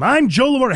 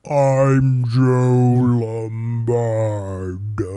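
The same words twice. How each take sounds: First: It is said at normal speed. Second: It is said slowly, drawn out.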